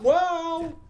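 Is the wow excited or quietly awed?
excited. It is an excited, adrenaline-filled wow.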